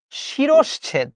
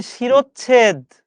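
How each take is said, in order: First: শিরশ্ছেদ drawn out very slowly, each sound careful; correct pronunciation. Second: শিরোচ্ছেদ said slowly as the common mistake; the wrong শিরোচ্ছেদ, deliberate; wrong pronunciation. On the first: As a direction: spell out শিরশ্ছেদ slowly for learners. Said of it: "হবে হচ্ছে". (শুদ্ধ উচ্চারণে ধীরে শিরশ্ছেদ) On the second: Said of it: "hundred percent ভুল". (ভুল উচ্চারণে শিরোচ্ছেদ) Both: Shown as a demonstration.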